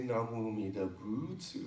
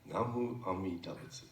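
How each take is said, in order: First: The syllable 'bu' is strongly stressed. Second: The syllable 'bu' is not stressed. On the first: The speaker calls it wrong. "now you got the emphasis on the boots" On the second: The speaker calls it right. "It's just Namu Amida Butsu"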